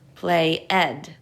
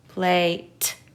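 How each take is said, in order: First: The ending is an extra syllable, ed. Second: The ending is a t sound. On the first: "Let's try the other sounds for ed" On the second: "that sounds like a word, but not the one we're looking for"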